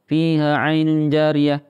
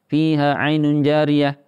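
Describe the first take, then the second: First: The long vowels are cut short and read quickly. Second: The same.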